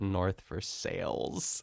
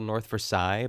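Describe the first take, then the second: First: Versailles is said with an anglicized local pronunciation. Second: Versailles is said with a French-style pronunciation. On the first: The speaker calls it wrong. "everyone calls it North Versailles. And it's terrible" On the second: The speaker calls it right. "there's a place called North Versailles"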